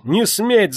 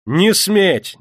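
First: Even higher repeat with НЕ stressed; louder desperate cry. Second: High, loud, НЕ stressed and falling; desperate cry. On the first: Yulka screams again at the crowd, rising panic. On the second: Yulka screams at the crowd, desperate. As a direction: forbid them in panic. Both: A narrator's reading. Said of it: "закричала она".

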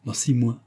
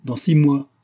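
First: Less forceful, falling repetition; amused echo. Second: Higher, louder defiant declaration; angry vow. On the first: Vera answers her friend's vow, amused echo. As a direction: repeat it lightly, in jest. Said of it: "Vera se mit à rire". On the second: Marianne vows to Vera after being contradicted, angry vow. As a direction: throw it down as a challenge. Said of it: "Elle fit un geste de colère". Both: A narrator's reading.

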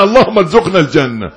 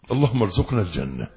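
First: 1 fervent loud prayer. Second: Said in the usual way. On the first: Real, not acted.

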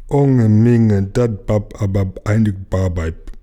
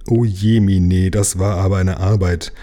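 First: "Onge Minge" garbled as if the tongue were glued down; tongue stuck. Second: Said in the usual way. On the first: A narrator's reading. Jim exhausted after licking stamps, "Onge Minge" tongue-tied and muffled. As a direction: drag out "dat bab abab einig barbeib" thickly, tongue stuck. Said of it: "die Zunge im Mund festgepappt". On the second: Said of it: "Er hatte eigentlich sagen wollen".

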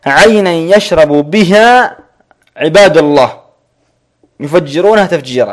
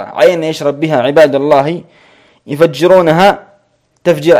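First: Quran recitation. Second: Said in the usual way. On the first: Shown as a demonstration. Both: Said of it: "كقوله سبحانه وتعالى".

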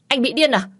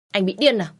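First: "Anh bị điên à?" yelled high and loud, hitting "điên"; shouting. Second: "Anh bị điên à?" said a little higher and louder, stress on "điên" but no yell; irritated retort. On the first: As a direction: scream it at him in fury. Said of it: "mà hét lớn". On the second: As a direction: snap it back, annoyed but not screaming. Second, milder retort. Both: Acted.

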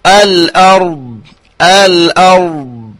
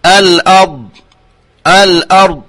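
First: Slow الأرض with the ra held midway; correct demo. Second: الأرض with the ra snatched away; mock the clipped ra in الأرض; imitating an error. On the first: Shown as a demonstration. Teacher shows the correct ra in الأرض. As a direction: give the ra of الأرض its middle quality. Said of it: "والصحيح هو أن يأتون بالتوسط". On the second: Teacher imitates reciters who swallow the ra. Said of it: "فيقولون".

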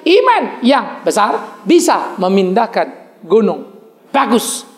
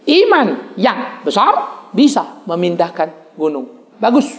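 First: Drawn-out repeat with iman stressed; slow repeat. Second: Slow, drawn-out recitation with a rise on iman; slow, deliberate teaching read; slow demonstration. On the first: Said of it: "Sekali lagi". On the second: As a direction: spell it out slowly for the congregation. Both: Shown as a demonstration.

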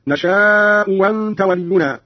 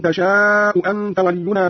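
First: وأنت opens on a w, not a glottal stop; hamza turned waw. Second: Said in the usual way. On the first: Shown as a demonstration. Teacher shows Qalun's reading, وأنت starting with w. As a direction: say وأنت as "wanta" after a long نشاء. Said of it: "بإبدال الهمزة الثانية واوا هكذا". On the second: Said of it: "قرأ قالون بإبدال الهمزة الثانية واوا".

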